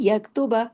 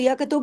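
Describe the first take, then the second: First: It ends with a short a vowel after b. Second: It ends on a bouncing b with no vowel. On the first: The word is joined to the next word. "लेकिन मिलाएँगे तो" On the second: The reciter stops on this word. "अगर रुकेंगे तो यकतुब होगा तो बा पे कलकला करना पड़ेगा"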